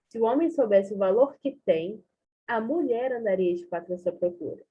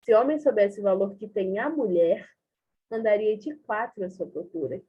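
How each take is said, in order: First: There is a pause after "tem". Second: There is a pause after "mulher".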